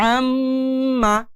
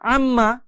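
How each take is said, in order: First: The doubled m is held long with a nasal hum. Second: The doubled m is short without a held hum. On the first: The speaker calls it right. "এই রকম সময় দিয়ে নাকের বাঁশি হতে একটা গুনগুন আওয়াজ বের করে" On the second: The speaker calls it wrong. "এখন আর এভাবে পড়া যাবে না।"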